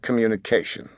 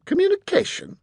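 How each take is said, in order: First: Said in the usual way. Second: High, incredulous scoff; scornful questioning echo. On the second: A narrator's reading. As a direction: echo the word in haughty disbelief, pitched way up. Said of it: "scoffed young Master Fowl".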